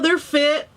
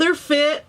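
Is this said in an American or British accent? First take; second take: American; American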